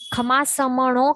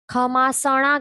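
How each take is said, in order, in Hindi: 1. बीच का 'm' उच्चारण स्पष्ट रूप से किया जाता है। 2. बीच का 'm' उच्चारण छोड़ दिया जाता है। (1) "खमासमणो कहना चाहिए" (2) "म उसके अंदर है वो उड़ा देते हैं, म नहीं कहते हैं"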